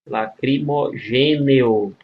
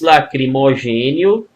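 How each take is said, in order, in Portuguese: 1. A terminação é dita devagar, com cada vogal bem distinta. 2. A terminação é dita em um ritmo normal e relaxado.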